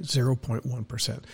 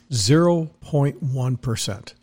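First: Said in the usual way. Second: Slowed-down spelling-out of "Zero point one percent", each word set apart; slow and deliberate. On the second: Shown as a demonstration. Host drilling the number into listeners, slow and deliberate. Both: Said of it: "I'll do it in fractions so that you get it".

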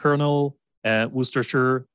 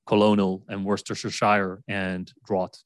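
First: Colonel as KERNEL, Worcestershire as WOOS-ter-sher; short spoken forms of Colonel and Worcestershire; correct pronunciation. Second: Colonel as co-LO-nel, Worcestershire ending SHIRE, draught as DRAWT; spelling pronunciation. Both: Shown as a demonstration. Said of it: "the pronunciation".

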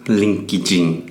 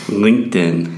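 First: LinkedIn said as linkidjing; Brazilian pronunciation. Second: LinkedIn in American accent. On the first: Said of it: "como os brasileiros falam". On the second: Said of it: "Eu vou falar com o sotaque americano". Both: Shown as a demonstration.

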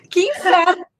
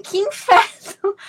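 First: Higher, louder, laughing through it; laughing exasperation. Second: Drawn-out, exasperated, higher and louder; exasperated groan. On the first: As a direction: laugh at your own bad luck. ("que inferno" rindo, mais agudo e alto) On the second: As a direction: moan it like everything's going wrong. (resmungo exasperado, mais agudo e lento) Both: Retold or imitated. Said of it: "Eu falo assim".

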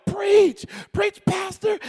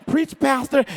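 First: High-pitched congregant's holler, imitated. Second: Said in the usual way. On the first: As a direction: mimic a wife hollering from the pews. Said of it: "she started hollering". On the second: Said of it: "her hollering and screaming".

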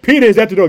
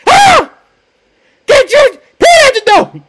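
First: Said in the usual way. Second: Very high, loud excited shriek; overjoyed scream. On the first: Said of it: "and exclaimed". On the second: Acted. Servant girl announcing Peter to the church, overjoyed shriek. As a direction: squeal the news at the top of your voice. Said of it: "she was so full of excitement".

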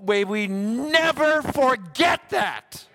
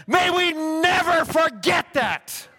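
First: Slow, heavy stress on never; slow earnest plea. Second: Much higher, louder preacher's shout on never; shouted plea. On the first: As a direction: plead it slowly, leaning on never. Exhortation after the vision story. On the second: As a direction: cry it out to the whole church. Climax of the exhortation. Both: Real, not acted.

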